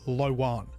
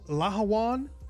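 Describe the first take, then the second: First: The middle H sound is dropped entirely. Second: The middle H sound is clearly pronounced. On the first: "I've heard others just say Lowan" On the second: "with the H actually pronounced"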